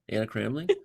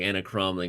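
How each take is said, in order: First: The surname's vowel is a soft A. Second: The surname's vowel is an open 'ah'. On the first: The speaker calls it right. "It's Cramling with the right emphasis on the right syllable" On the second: The speaker calls it wrong. "the Slavic pronunciation where there's no like soft A. It's like ah"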